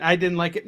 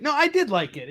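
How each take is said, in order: First: Said in the usual way. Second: Did said higher and leaned on; stress on did. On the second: Shown as a demonstration. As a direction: hit the word did as a correction. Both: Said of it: "No, I'm just kidding".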